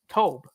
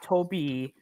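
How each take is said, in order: First: The name ends without a final vowel sound. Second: The name ends with a sounded final vowel. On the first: The speaker calls it right. "There's no pronunciation on the E" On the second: The speaker calls it wrong. "if there was an accent on the E, then I would call him Toby"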